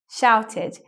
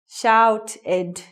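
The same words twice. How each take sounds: First: The ending is said as a short 'id'. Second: The ending is said as a full 'ed'. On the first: The speaker calls it right. "makes an I D sound" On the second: The speaker calls it wrong. "E D word endings sound like this"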